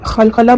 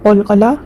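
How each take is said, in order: First: It starts with a raspy kh sound. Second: It starts with a deep q sound. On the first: The speaker calls it wrong. "बहुत लोग बोलते हैं जो कि गलत लफ्ज़ है" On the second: The speaker calls it right. "अच्छे से प्रोनाउंस करें"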